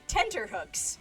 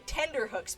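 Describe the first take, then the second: First: The middle consonant is a T sound. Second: The middle consonant is a D sound. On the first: The speaker calls it right. "they changed it correctly to say tenterhooks" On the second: The speaker calls it wrong. "he used to say tenderhooks"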